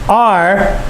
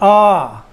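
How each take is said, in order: First: The letter name ends with a strong R sound. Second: The letter name ends in an open ah, no R. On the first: "The name of the letter is R" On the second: "The British would say the name of the letter is ah"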